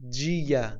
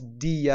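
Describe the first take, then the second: First: The word begins with a j sound. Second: The word begins with a d sound. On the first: The speaker calls it right. "جی خونده میشه حتما" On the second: The speaker calls it wrong. "دیه اشتباهه"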